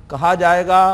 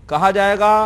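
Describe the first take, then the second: No difference in how they are said.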